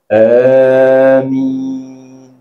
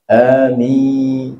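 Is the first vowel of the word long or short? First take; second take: long; short. First: The first vowel is drawn out long. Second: The first vowel is cut short. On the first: "tu panjang sikit, ada mat"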